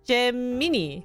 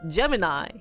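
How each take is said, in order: First: The word ends with a 'mee' sound. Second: The word ends with a 'my' sound. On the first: This is how the spelling suggests it should sound. "it's mini, right? ... you should just pronounce this as Gemini" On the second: This is how the word is actually pronounced. "But it's Gemini"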